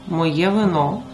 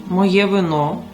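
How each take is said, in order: The two takes are said the same way.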